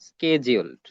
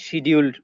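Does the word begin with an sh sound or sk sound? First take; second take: sk sound; sh sound. First: The word begins with an sk sound. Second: The word begins with an sh sound. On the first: "এদেরকে ইংলিশে বলা হয় স্কেজিউলড" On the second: "অথবা আপনি চাইলে শিডিউলড উচ্চারণ করতে পারেন"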